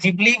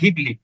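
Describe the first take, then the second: First: The word begins with a j sound. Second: The word begins with a hard g sound. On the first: This is the English pronunciation. "ইংলিশে ওটাকে জিবলি বলছে" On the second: This is the Italian pronunciation. "Italian pronunciation ওটা ঘিবলি"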